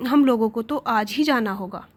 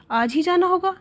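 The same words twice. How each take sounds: First: Said in the usual way. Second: Higher-pitched astonished question; surprised, irritated. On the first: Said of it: "देखते ही पुरुष ने कहा". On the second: A narrator's reading. Wife hears they must leave today, surprised and irritated. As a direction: question it with a touch of annoyance. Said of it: "आश्चर्ययुक्त होकर और झुंझलाकर बोली".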